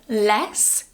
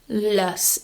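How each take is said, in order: First: The vowel is full and strong. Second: The vowel is relaxed and reduced. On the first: The speaker calls it wrong. "the strong form less" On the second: The speaker calls it right. "It's more relaxed"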